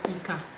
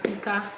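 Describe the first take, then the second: First: The pitch stays low on both syllables. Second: The pitch stays mid on both syllables. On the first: "that's Dodo" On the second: "that's Rere"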